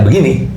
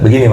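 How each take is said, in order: First: The voice sounds deep and full. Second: The voice sounds light and thin.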